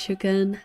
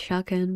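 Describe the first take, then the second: First: Shukan with an "oo" first vowel; correct pronunciation. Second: Shakan with an "ah" first vowel; mispronunciation. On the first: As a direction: say "Shukan" as SHOO-kun. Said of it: "I know it's Shukan". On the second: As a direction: say "Shakan" as SHAH-kun. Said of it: "it's not pronounced Shakan". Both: Shown as a demonstration.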